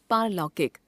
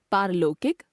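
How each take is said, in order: First: Said in the usual way. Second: पारलौकिक as "paarlokik", close o for au; wrong pronunciation. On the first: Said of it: "शुद्ध". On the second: Shown as a demonstration. Teacher showing an o-au error, पारलौकिक said as "paarlokik". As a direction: narrow the au of पारलौकिक, rising. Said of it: "अशुद्ध".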